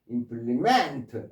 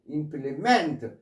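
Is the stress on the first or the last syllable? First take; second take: last; last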